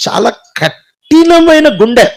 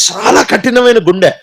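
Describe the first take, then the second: First: కఠినమైన drawn out slowly and pressed louder; stress on hard heart. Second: Said in the usual way. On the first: Real, not acted. (కఠినమైన అనే మాటను నెమ్మదిగా, గట్టిగా ఒత్తి పలకండి)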